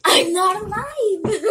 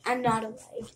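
First: Loud, high, drawn-out yell; shouting. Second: Said in the usual way. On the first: Real, not acted. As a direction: yell it out, breaking into a laugh. Repeats it shouted in the game.

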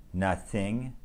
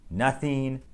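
First: "nothing" said syllable by syllable, with the th held; broken into parts. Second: Said in the usual way. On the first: Shown as a demonstration. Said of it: "breaking the words down into smaller parts". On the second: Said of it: "words that have the T H sound in the middle".

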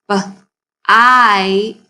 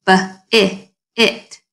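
First: B, then a long stretched ite, louder; segmented bite. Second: B-i-it with a drawn-out short i; stretched short i. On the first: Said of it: "turn this word into a new word with the long I". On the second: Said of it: "that sounds like a short I sound". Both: Shown as a demonstration.

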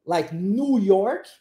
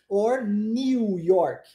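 First: Slow "New York" with New as plain "noo". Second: Slow "New York" with New as "nyoo", a y glide before the vowel. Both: Shown as a demonstration. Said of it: "pode ser pronunciado new".

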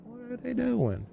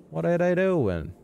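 First: Very high, soft, drawn-out squeak; tiny falsetto. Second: High, slow sing-out question; high-pitched wondering. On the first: Gamer echoes his question about figures, tiny falsetto. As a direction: repeat it as a small, slow falsetto echo. Repeats question higher, softer. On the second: Gamer watches odd figures, high-pitched wondering. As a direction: stretch it out high in puzzlement. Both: Pretend.

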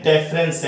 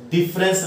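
First: ਡਿਫਰੈਂਸ with an e in the first syllable, "DEF-rens"; ਡਿਫਰੈਂਸ opening on "def", not "dif"; correct pronunciation shown. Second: ਡਿਫਰੈਂਸ with a short i in the first syllable, "DIF-rens"; ਡਿਫਰੈਂਸ opening on "dif", not "def"; wrong pronunciation shown. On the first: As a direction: say ਡਿਫਰੈਂਸ as "deference". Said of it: "ਡਿਫਰੈਂਸ ਹੈ". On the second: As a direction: say ਡਿਫਰੈਂਸ like English "difference". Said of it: "ਡਿਫਰੈਂਸ ਨਹੀਂ ਹੈ". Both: Shown as a demonstration.

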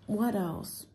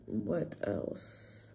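First: Said in the usual way. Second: Whispered. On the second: Real, not acted. Musing aloud, hushed.

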